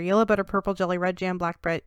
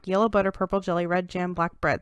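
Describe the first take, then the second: First: It is said even more quickly. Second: It is said quickly.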